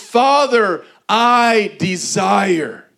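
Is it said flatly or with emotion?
with emotion. It is said with strong emotion.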